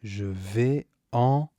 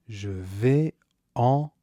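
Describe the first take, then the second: No difference in how they are said.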